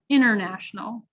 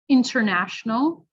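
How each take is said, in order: First: The T after N is dropped. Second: The T after N is clearly pronounced. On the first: The speaker calls it wrong. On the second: The speaker calls it right.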